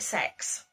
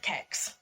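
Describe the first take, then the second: First: The name is said as one word, 'sex'. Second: The name is said as one word, 'kex'. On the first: "Some people pronounce it sex" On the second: "Apparently that is how it is pronounced"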